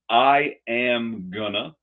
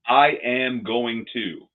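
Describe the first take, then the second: First: Going to is reduced to gonna. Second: Every word is said fully and separately.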